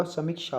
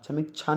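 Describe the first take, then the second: First: समीक्षा ending in "-sha"; correct pronunciation. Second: समीक्षा ending in "-chha"; wrong pronunciation. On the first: Teacher corrects it for students, careful pronunciation. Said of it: "समीक्षा होगा". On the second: Teacher shows students the error, mispronounced. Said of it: "समीक्षा नहीं होगा". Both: Shown as a demonstration.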